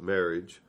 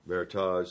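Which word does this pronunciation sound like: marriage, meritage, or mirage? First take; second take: marriage; meritage. First: It sounds like the word marriage. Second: It sounds like the word meritage. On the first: "most people call it marriage" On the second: "A lot of people call it Meritage, like a wine"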